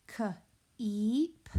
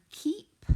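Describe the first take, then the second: First: "k-eep" split after the k, with a gap before a long eep; sounded out. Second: Said in the usual way. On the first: Shown as a demonstration. Teacher sounding out the next word for pupils, k-eep in two parts. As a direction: break k-eep into k, pause, then stretched eep.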